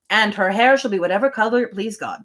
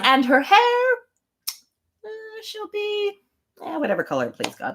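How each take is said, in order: First: It is said as a plain, matter-of-fact statement. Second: It is said hesitantly and with indifference.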